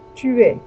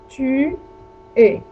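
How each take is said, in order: First: There is little gap between the words. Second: There is a clear gap between the words. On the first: The speaker calls it right. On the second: The speaker calls it wrong.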